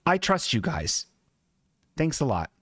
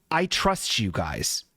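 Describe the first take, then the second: First: Sincere trust redone. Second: Slow, lower, heartfelt trust; sincere trust. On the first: Shown as a demonstration. Showing the audience how he told the mechanics, sincere. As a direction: show exactly how you said it, earnest. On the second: Retold or imitated. Telling the mechanics he trusts them, slow sincere. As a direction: lay it on with earnest sincerity. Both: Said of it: "And I said it just like that".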